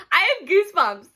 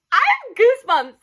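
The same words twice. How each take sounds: First: Higher, laughing through the words; giggly goosebumps. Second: Higher and louder, stress on have; louder giddy repeat. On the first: Vlogger giddy about Matt, laughing as she speaks. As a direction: say it half giggling, embarrassed. Flustered over her crush. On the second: Vlogger repeating her crush confession, louder and excited. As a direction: insist on it, excited. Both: Real, not acted.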